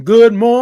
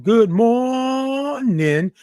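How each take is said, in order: First: Louder, higher, ringing greeting; clearer good morning. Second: Slow, drawn-out greeting with an unready throat; rough good morning. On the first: Greeting Jaden again after a drink, louder and higher. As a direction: belt it out now the throat is clear. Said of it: "get me a little libation in that throat". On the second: Greeting Jaden before clearing the throat, slow rough drawn-out hello. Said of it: "I gotta get you better than that". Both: Real, not acted.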